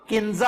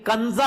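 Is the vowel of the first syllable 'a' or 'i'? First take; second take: i; a. First: The first syllable has the vowel 'i'. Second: The first syllable has the vowel 'a'. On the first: The speaker calls it wrong. "किंजा आप कहते हैं" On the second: The speaker calls it right. "काफ के ऊपर जबर है, जेर नहीं है"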